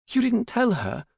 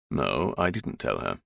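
First: Very high, alarmed daughter voice; high-pitched anxious question; alarmed demand. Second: Low, slow fatherly voice; deep-set, deliberate paternal reply; father's measured answer. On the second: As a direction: answer the worried daughter slowly and low. Father slowly answers his alarmed daughter. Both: A narrator's reading.

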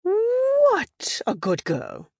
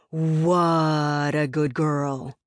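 First: High, slow praise with a drawn-out "What"; high-pitched slow "What a good girl", falling away; softened British trainer praise. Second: Put-on "What a good girl" stretched slowly, loving the W; slow dog-praise with a long "Wwwhat"; drawn-out W in "What". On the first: Retold or imitated. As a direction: coo to a dog as a British lady, stretching "What". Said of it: "consonant on the other side ... got drawn out". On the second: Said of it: "W sound ... important to draw it out".

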